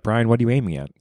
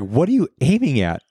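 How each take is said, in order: First: It is said in a calm tone. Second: It is said in an agitated, uncalm tone.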